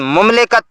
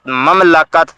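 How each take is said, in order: First: The first vowel is 'u'. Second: The first vowel is 'a'. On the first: The speaker calls it wrong. "मीम की पेश के साथ" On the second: The speaker calls it right. "सही तलफ़ुज़ मीम के ज़बर के साथ"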